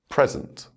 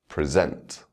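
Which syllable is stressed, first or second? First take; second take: first; second. First: The stress is on the first syllable. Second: The stress is on the second syllable. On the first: It is used as a noun. "the noun will have its word stress on the first syllable" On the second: It is used as a verb. "with the verb, the stress will fall on the second syllable"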